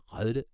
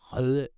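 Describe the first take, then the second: First: It has a front rounded ø vowel. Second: The same.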